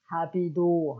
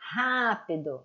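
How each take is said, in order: First: The stress is on the second syllable. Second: The stress is on the first syllable. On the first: The speaker calls it wrong. "et non rapido" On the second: The speaker calls it right. "Où il y a l'accent, ça va te dire où est la syllabe forte"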